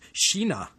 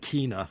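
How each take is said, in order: First: The word begins with an SH sound. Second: The word begins with a hard K sound. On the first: The speaker calls it right. "it should be pronounced Kina. Who knew a Swedish K is our English S H?" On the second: The speaker calls it wrong. "I said Kina in an earlier podcast"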